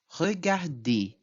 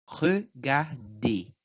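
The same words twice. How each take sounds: First: Regarder ending in an open "ey", no R sound; silent final R. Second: Regarder very slowly in three separate beats, final R silent; syllable by syllable. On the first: Teacher shows students the silent ending, final R dropped in regarder. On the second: Teacher models regarder for students, slow split syllables with silent R. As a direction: break it up: re, gar, dé for regarder. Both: Shown as a demonstration. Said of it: "eu falo apenas".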